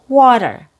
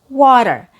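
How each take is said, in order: No difference in how they are said.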